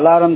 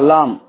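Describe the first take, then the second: First: It has three syllables with an added vowel. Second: It has two syllables with no added vowel. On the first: The speaker calls it wrong. "ஆனா but இது அலாரம் கிடையாது" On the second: The speaker calls it right. "அலாம் அலாம் சரிங்களா"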